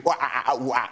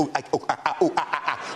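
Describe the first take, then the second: First: Light mock ooh-ah grunts; monkey noises. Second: Monkey noises. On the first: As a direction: another lazy round of monkey grunting. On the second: Retold or imitated. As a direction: grunt like a monkey on moguls. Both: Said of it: "Monkey impressions".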